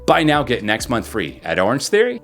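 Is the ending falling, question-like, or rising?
question-like. The pitch rises sharply like a question. The line sounds like a question. "If you do it too much, you can make it sound like a question"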